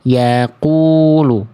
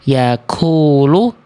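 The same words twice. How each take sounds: First: The q sound is held without any breath escaping. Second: The q sound is released with a puff of breath. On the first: The speaker calls it right. "harusnya yaqulu" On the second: The speaker calls it wrong. "tetot, salah"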